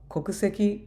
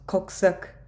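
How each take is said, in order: First: The word ends with a full final vowel. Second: The final vowel is dropped after the k.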